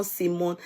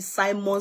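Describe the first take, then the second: First: "Simon" with first syllable like "see"; SEE-mon pronunciation. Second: "Simon" with first syllable like "sigh"; SY-mon pronunciation. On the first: Host lists the other way, "Simon" as SEE-mon. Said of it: "the way they pronounce it". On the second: Host lists how many people call it, "Simon" as SY-mon. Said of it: "Many people call it". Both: Shown as a demonstration.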